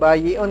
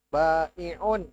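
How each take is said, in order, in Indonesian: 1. Konsonan tengah itu bunyi y. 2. Konsonan tengah itu hamzah. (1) "Bukan bayi'un" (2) "Jadi yang benar yang ini"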